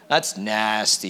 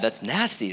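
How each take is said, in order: First: It is said in a disgusted, disapproving tone. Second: It is said in an impressed, approving tone. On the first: The thing is bad. "That's bad" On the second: The thing is good. "That's good"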